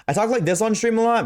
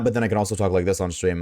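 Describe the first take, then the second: First: The bright streamer voice, pitched way up; high performed stream voice. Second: The unadjusted low voice, faster; dropped to his real lower register; natural lower voice. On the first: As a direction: put on a much higher, lifted voice. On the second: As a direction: drop into his own lower voice, a bit quicker. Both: Shown as a demonstration. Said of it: "this is how I sound without any adjustments".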